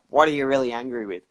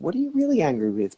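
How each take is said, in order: First: It is asked in a confrontational tone. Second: It is asked in a curious tone.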